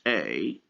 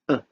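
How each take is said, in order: First: The vowel is said as a full vowel. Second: The vowel is reduced to a short schwa. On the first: "when it is stressed" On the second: "When it is unstressed"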